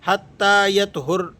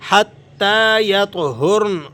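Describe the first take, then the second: First: The final n is not clearly pronounced. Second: The final n is clearly pronounced without a vowel. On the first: The speaker calls it wrong. "बात साथी इसे हत्ता यतहुर हुर्न इस तरह कर देते हैं, नून को वाज़े नहीं करते" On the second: The speaker calls it right. "इस तरह से इसकी अदायगी होगी"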